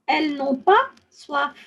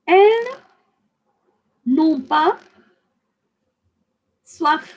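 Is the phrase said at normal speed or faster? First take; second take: faster; normal. First: It is said a little faster than normal. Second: It is said at a normal speaking speed.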